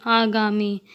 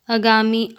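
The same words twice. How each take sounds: First: Long opening aa in "आगामी"; correct pronunciation. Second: Short first vowel in "आगामी", like "अगामी"; incorrect pronunciation. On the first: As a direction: say "आगामी" with the first vowel held long. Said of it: "शुद्ध शब्द". ("आगामी" का शुद्ध उच्चारण, शुरू में लंबा आ) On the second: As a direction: say "आगामी" wrongly with a brief opening a. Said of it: "अशुद्ध शब्द". ("आगामी" का अशुद्ध उच्चारण, शुरू में छोटा अ) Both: Shown as a demonstration.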